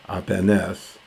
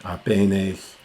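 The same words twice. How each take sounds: The two takes are said the same way.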